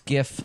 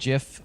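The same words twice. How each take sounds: First: The word starts with a hard G sound. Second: The word starts with a J sound. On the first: The speaker calls it right. "I think it actually is GIF" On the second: The speaker calls it wrong. "I do it with the J sound"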